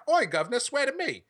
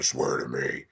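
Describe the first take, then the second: First: British Batman. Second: Deep, gravelly-free low growl of a movie Batman. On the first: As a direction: ham it up as a cockney Batman. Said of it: "if he's British and he's like". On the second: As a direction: drop way lower into a grim Batman rasp. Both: Retold or imitated.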